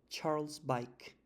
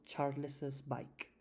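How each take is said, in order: First: Charles keeps one syllable before bike. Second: An extra syllable follows Charles before bike. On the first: "me apalanco en la misma S de Charles y no tengo que pronunciar doble S" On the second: "yo me invento una E que no existe y digo Charles's bike"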